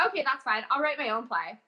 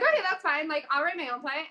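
First: Said in the usual way. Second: Okay pitched higher, bright and chipper; upbeat retake. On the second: Shown as a demonstration. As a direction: brush off the rejection cheerfully. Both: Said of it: "I'm like".

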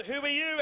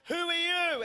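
First: Raised, startled who are you; a touch of startled confusion; startled question. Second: Higher, startled echo of the question; lightly voiced startled girl; girl's startled echo. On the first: Retold or imitated. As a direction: blurt it out in shock. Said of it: "And I said to this girl". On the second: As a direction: throw it back at him, higher. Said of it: "And she said to me".

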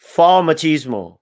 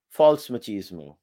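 First: For machismo said slowly and louder, stressing For; slow, loud, deliberate repeat of For machismo. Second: Said in the usual way. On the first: Shown as a demonstration. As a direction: spell it out slowly for the listener. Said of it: "What, machismo?".

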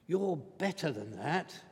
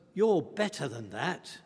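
First: Repeated much softer, gently pressing. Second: Said in the usual way. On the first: Retold or imitated. Morse quietly restraining Thursday, softer repeat. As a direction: say it again quietly, as a gentle reminder.

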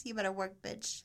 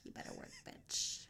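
First: Said in the usual way. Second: Hushed, voiceless whisper of the hook; whispered echo. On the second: Acted. Friend reading [name] lyrics to the others, whispered.

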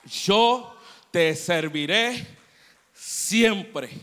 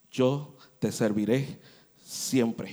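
First: Very loud, slow, rising to a peak; impassioned vow. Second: Solemn vow. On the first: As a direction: cry the promise out with all your might. Girl's vow repeated, climaxing. (promesa clamada muy fuerte y lenta, en crescendo) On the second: Girl vows to serve forever. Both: Acted.

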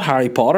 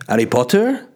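First: Said in the usual way. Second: Lightly imitated French accent; French-accented question, vowels shifted. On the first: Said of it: "And I went". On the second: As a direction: mimic a French housemate's English. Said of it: "that's a weird accent".

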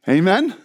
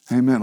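First: "Amen?" rising at the end like a question. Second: "Amen" dropped low and level; settled amen. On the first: Preacher prompting the congregation for a response, questioning "Amen?". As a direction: lift the end of "Amen?" to ask for agreement. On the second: Preacher confirming the congregation's agreement, low settled "Amen". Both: Real, not acted.

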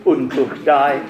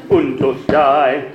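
First: Said in the usual way. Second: Und and durch each punched, slow; slow, accented und durch die; two accents, on und and durch. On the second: Shown as a demonstration. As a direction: lean hard on und, then again on durch. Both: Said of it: "putting two accents on".

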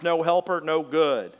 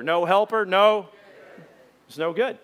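First: No helper, no good as a rhythmic chant, HELPER and NO punched; chanted, say it as a call for the crowd to repeat; stressed chant. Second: No helper, no, it's no good, louder, HELPER and GOOD stressed; louder repeat. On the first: Chanted, preacher modelling the line for the congregation, stressed. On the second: Preacher leading the congregation's repeat, louder. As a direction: lead the congregation in saying it back. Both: Shown as a demonstration. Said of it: "Let's say that together".

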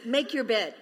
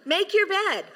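First: Said in the usual way. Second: Much higher and louder, urging; emphatic command. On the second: Real, not acted. Pastor urging the congregation to tidy up, loud and high. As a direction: insist on YOUR bed.

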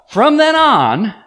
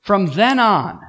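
First: "From then on" said slowly, much higher and louder, THEN drawn out with a rise; slow, stretched delivery. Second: Said in the usual way. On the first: Shown as a demonstration. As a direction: stretch out "From then on" high and loud, THEN rising. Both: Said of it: "oh, redirect".

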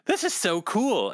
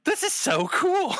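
First: Excited. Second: Very high, giddy squeal of awe. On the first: Retold awed remark. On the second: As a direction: gush like a thrilled kid. Retold, much higher, far. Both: Retold or imitated.

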